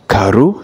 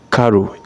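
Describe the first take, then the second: First: The name is said with a Nigerian pronunciation. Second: The name is said with a standard pronunciation. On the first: "I'm using the tone of a Nigerian to call it CARO" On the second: "You can also call it CARO in phonetics"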